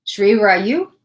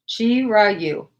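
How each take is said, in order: First: Put-on "Shri Rayu" with a "shri" opening, the old wrong way; wrong pronunciation. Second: "Chi Rayu" said with a "chi" opening and falling tune; corrected pronunciation. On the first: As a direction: say "Shri Rayu" as first guessed, a bit unsure. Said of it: "I was saying it wrong". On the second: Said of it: "they told me how to pronounce this". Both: Shown as a demonstration.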